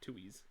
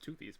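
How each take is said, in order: First: The name has no 'th' sound in the middle. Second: The name has a 'th' sound in the middle. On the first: The speaker calls it right. "but no, it's a Tuies" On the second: The speaker calls it wrong. "I thought it was Toothies"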